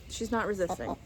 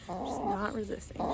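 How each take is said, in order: First: Said in the usual way. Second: Much softer, half to yourself; self-convincing murmur. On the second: Real, not acted. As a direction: talk yourself into it. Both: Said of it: "I have to tell myself that".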